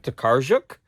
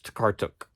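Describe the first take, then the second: First: The name is said as 'Tokarczuk'. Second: The name is said as 'Takartuk'. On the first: The speaker calls it wrong. "I like saying Olga Tokarczuk, but it's wrong" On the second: The speaker calls it right. "It's Takartuk"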